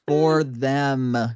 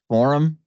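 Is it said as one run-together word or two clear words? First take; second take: two words; one word. First: The two words are said clearly apart. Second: The words run together into one word. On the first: The speaker calls it right. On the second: The speaker calls it wrong.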